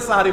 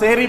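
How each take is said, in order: First: The word begins with 'sah' and has three syllables. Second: The word begins with 'seh' and has two syllables. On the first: The speaker calls it right. "সেহরি না বলে সাহারি বলুন" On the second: The speaker calls it wrong. "শব্দটা সেহরি না।"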